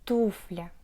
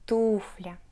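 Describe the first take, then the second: First: The stress falls on the first syllable. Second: The same.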